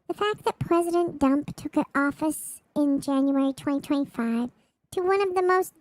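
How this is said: It is read in a baby voice.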